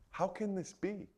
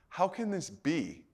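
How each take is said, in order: First: It sounds sincere and curious. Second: It sounds doubtful and scoffing.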